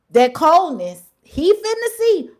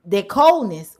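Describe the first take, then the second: First: Higher, louder, slow menace; ominous emphasis. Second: Said in the usual way. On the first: Real, not acted. Warning the fired man what's coming, loud and slow. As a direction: lean into the threat. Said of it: "repeated, stronger". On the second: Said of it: "repeated phrase".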